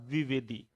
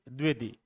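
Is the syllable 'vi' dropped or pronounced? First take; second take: pronounced; dropped. First: Every syllable, including 'vi', is pronounced. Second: The syllable 'vi' is dropped from the word. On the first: The speaker calls it right. "जैसे बोलते हैं आचार्य Hazari Prasad द्विवेदी" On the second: The speaker calls it wrong. "न कि द्विवेदी"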